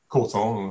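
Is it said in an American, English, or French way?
English. The first syllable is stressed, English style.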